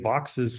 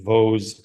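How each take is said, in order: First: The name sounds like 'Vox' with a final s. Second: The name sounds like 'Vose' with a long o. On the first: "I'm going with Vox's" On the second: "for many years I called a Vose swift"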